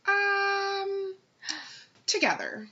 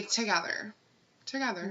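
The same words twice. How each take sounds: First: Long high "um", then a reluctant "together"; mock reluctant date; imitated hesitation. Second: Prompt, matter-of-fact "together"; simple, decided demonstration of the reply; immediate answer. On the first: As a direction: stall on a drawn-out um before answering. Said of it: "and then he's like". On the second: Shown as a demonstration. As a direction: answer at once without any stalling. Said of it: "Immediately say".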